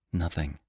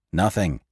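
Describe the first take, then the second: First: Soft, low muttered word. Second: Echoed. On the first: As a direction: let it sink under your breath. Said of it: "he muttered". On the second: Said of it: "they echoed, palpitating with excitement". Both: A narrator's reading.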